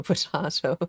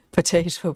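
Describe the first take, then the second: First: Potato as po-TAH-to; broad A pronunciation. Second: Potato as po-TAY-to; long A pronunciation. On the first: Host joking about the tartar debate, potato as po-TAH-to. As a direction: say potato with an open 'ah' in the middle. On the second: Host joking about the tartar debate, potato as po-TAY-to. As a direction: say potato with an 'ay' in the middle. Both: Shown as a demonstration. Contrasting two ways of saying potato.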